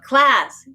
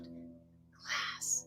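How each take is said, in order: First: The word is said loudly. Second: The word is said softly. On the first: "saying it loud" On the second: "or soft"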